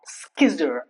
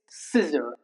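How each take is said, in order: First: The C is sounded as a K. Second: The C is silent. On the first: The speaker calls it wrong. "not skizzer" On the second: The speaker calls it right. "it's scissor"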